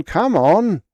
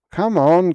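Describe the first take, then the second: First: Loud high bark, falling. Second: Loud high bark, rising. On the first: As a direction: bark it, then drop. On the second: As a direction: bark it impatiently. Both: Acted. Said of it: "he barked".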